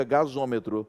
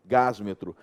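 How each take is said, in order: First: "gasômetro" with the linking O, stress on MÔ; "gasômetro", ga-ZÔ-me-tro, smooth with the added O; corrected form. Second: "Gásmetro" said as two chunks, stress on GÁS, no linking vowel; "Gásmetro" with the s jammed straight into "metro"; awkward wrong form. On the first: Teacher gives students the better form, stressing MÔ. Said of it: "pra melhorar a pronúncia você vem e coloca um O". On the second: Teacher shows students the awkward form, stressing GÁS. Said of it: "Fica muito esquisito". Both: Shown as a demonstration.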